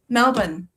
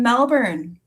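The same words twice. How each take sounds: First: It is said in an imitated Australian accent. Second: It is said in an ordinary American accent.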